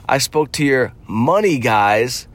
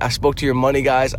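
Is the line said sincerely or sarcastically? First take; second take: sarcastically; sincerely. First: It is said mockingly, as if they're fake. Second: It is said plainly and sincerely.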